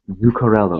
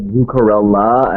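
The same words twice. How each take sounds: First: "Zuccarello" ending in an -o sound; "Zuccarello" with its usual final o; fun name. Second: "Zuccarella" ending in -la instead of -lo; quoted "Zuccarella" with an -a ending; broadcaster's mispronunciation. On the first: Shown as a demonstration. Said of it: "such a fun name to say". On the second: Retold or imitated. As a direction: imitate the botched name "Zuccarella", with a final ah. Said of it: "someone on the C B C broadcast said".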